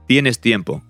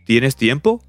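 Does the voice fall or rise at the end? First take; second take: falls; rises. First: The voice falls at the end. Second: The voice rises at the end. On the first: It states that the listener has time. "it's an affirmation" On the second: It asks whether the listener has time. "all you do is just raise the intonation"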